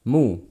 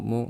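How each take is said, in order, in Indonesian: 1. Vokal ini diucapkan dengan bibir dimajukan jauh ke depan. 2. Vokal ini diucapkan dengan bibir kendur, hampir tidak membulat. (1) "Majukan kedua bibirnya" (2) "Jangan ... Jangan pelit-pelit"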